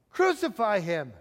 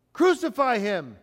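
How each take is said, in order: First: Insistent mock shout. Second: Restrained shout, louder on the first word; raised, mock crowd shout. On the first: Crowd insisting to Pilate after his question, restrained insistent shout. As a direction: cry it out firmly, stopping short of yelling. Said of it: "shouted all the louder". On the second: Crowd answering Pilate about the King of the Jews, restrained shout. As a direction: call it out like a crowd, without a full yell. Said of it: "they shouted". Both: A narrator's reading.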